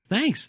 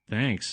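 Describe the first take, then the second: First: It is shrieked in an excited tone. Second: It is mumbled in a sarcastic tone. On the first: The speaker is truly delighted and grateful. "I shrieked, and ran to give him a great big hug" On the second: The speaker is not really grateful. "I mumbled sarcastically, rolling my eyes at him"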